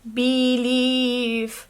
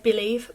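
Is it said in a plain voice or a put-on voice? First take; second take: put-on; plain. First: It is said in a put-on voice. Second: It is said in a plain voice.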